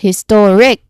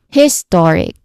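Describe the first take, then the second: First: The stress is on the last syllable. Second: The stress is on the first syllable. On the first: "or the ick itself" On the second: "putting the stress on the first syllable"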